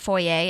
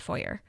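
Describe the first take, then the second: First: It ends in a vowel, French-style, without R. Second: It ends with a clear R sound. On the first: The speaker calls it wrong. "it's not foyer. Everyone tries to make it like fancy" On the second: The speaker calls it right. "foyer is actually pronounced with an R"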